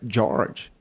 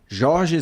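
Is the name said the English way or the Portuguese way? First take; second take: English; Portuguese. First: The name is said with English sounds. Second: The name is said with Portuguese sounds. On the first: This is how people abroad say it. "E lá fora é" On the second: This is how people in Brazil say it. "Aqui no Brasil o pessoal falava"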